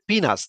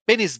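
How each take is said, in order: First: The first vowel is long, as in 'pea'. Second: The first vowel is short, as in 'pen'. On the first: This is the English pronunciation. The speaker calls it right. "কিন্তু ইংরেজিতে উচ্চারণ হচ্ছে পিনাস" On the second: This is how local speakers say it. The speaker calls it wrong. "আমরা ছেলেদের যে machine সেটাকে আমরা আ পেনিস বলি।"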